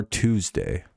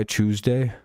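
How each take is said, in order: First: Said in the usual way. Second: "Tuesday" with a "ch" at the start; British pronunciation. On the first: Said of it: "is the same as our Tuesday". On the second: Shown as a demonstration. Streamer comparing British and American, "Tuesday" said as CHOOZ-day. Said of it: "their word Tuesday".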